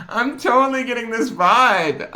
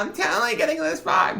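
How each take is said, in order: First: Put-on high, loud, laughing valley girl. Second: Put-on very high, upspeak valley girl. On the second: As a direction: squeal it like a sorority girl. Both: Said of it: "I sound like a valley girl".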